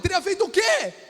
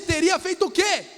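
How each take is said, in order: First: The question is asked in an angry voice. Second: The question is asked in a calm voice.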